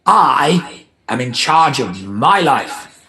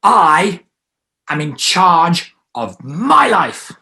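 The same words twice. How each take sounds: First: Slow and steady, a bit loud; slow firm "I am in charge of my life"; firm statement. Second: Slow, higher and much louder; slow, loud, high "I am in charge of my life"; stronger declaration. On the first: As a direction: say it firmly. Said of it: "first sentence". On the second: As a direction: proclaim it. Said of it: "it's gonna be stronger". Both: Shown as a demonstration.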